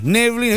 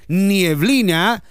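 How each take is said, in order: First: The first syllable is a plain 'ne' sound. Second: The first syllable has an added 'ie' glide. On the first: The speaker calls it right. "No, se dice neblina" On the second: The speaker calls it wrong. "Si usted dice nieblina, está equivocado"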